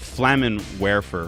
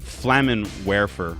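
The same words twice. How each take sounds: First: The e in werfer has an American vowel. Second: The same.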